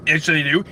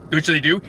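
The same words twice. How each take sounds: The two takes are said the same way.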